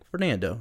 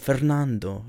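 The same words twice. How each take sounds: First: The name is said with an English pronunciation. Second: The name is said with a Spanish pronunciation. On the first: This version is easier for people to say back. "that's how you say my name" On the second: This is how the name is pronounced in Spanish. "you know, like that"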